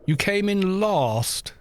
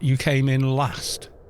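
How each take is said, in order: First: The phrase is said with a southern English vowel. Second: The phrase is said with a northern English vowel. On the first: "to speak very plumb in the mouth, um, a mid southern accent" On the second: "not you came in last"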